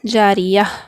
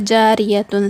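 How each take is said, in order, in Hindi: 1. शब्द नरम 'ah' की आवाज़ पर खत्म होता है। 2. शब्द 'tun' की आवाज़ पर खत्म होता है।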